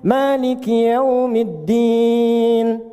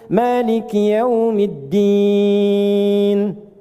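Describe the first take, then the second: First: The final vowel is held about two seconds. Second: The final vowel is held about three seconds. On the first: "Anda baca empat" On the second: "bisa kita baca tiga detik ujungnya / Enam harakat"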